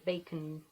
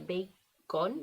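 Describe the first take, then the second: First: The second vowel is a short schwa. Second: The second vowel is full and clear. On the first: The speaker calls it right. "dice bacon" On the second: The speaker calls it wrong. "No dice bacon"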